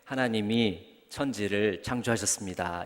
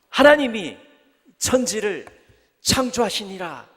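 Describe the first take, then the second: First: It is said flatly, without feeling. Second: It is said with great amazement.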